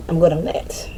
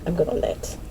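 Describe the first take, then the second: First: Said in the usual way. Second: Breathy whisper of the same line; whispered aside. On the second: Real, not acted. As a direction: breathe it out, almost to yourself. Repeats it as a whisper.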